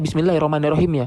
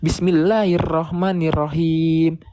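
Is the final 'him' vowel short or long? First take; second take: short; long. First: The vowel in the last syllable is short. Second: The vowel in the last syllable is lengthened. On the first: "Kalau kita tahunya" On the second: "kita bisa membaca dua harakat di kata himnya"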